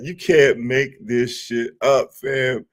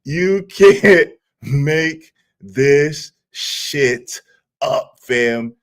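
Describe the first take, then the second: First: Slow, incredulous run of words; laughing disbelief. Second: Very slow, one word at a time through laughter; laughing disbelief. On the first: Streamer to viewers after a clip, amused disbelief. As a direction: draw the line out in amused disbelief. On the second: Streamer repeating it to viewers, laughing in disbelief. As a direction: break "You can't make this shit up" into separate drawn-out words. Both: Real, not acted. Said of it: "the reason why I'm laughing so hard".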